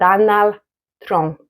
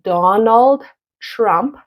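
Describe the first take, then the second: First: The final consonant cluster is cut short. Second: The final consonant cluster is fully pronounced. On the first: The speaker calls it wrong. "I'll hear" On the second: The speaker calls it right. "instead of saying"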